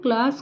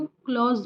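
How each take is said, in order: First: The word has an open 'a' vowel and ends in s. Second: The word has an 'aw' vowel and ends in z. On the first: The speaker calls it right. "क्लास इसका भी उच्चारण सही प्रकार से करें" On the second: The speaker calls it wrong. "क्लास को क्लॉज़ बोलती थी"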